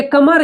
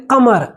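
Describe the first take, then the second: First: "कमर" with an ordinary front k; k without nukta. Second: "कमर" as qamar, k made back in the throat; nukta q sound. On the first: Teacher showing the word for waist, "कमर" with plain k. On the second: Teacher showing the word for moon, "कमर" with throaty q. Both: Shown as a demonstration. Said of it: "दोनों का उच्चारण अलग".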